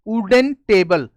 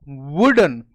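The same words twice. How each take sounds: First: वुडन begun with a bare ऊ and no w, slowly; wrong oo start. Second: वुडन with lips meeting for a clear w, lower; correct w. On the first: Teacher imitating students' mistake, starting वुडन with ऊ. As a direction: say वुडन as ऊडन, drawn out. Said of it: "वो क्या करते हैं सीधा वुडन". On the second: Teacher showing the right वुडन, lips together, lower. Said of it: "इसमें होठ टकराएंगे आपस में". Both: Shown as a demonstration.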